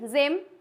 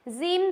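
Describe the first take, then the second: First: The vowel is a short i sound. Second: The vowel is a long ee sound. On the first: The speaker calls it right. "It sound like a short I" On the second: The speaker calls it wrong. "जिम तो नहीं पढ़ते हैं"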